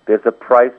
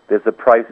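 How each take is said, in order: Both takes have the same delivery.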